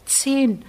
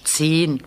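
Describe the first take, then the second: First: Said in the usual way. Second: Condescending. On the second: A narrator's reading. Janusz mocking Andrzej's answer, condescending. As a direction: toss off "zehn" with a patronising fall. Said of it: "Das klingt sehr von oben herab".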